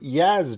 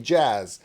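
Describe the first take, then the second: First: The word begins with a Y sound. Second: The word begins with a J sound. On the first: This is how the drummer himself says it. The speaker calls it right. "he said two Yaz drummers" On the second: This is how Americans say it. The speaker calls it wrong. "in America we say it wrong. We say jazz"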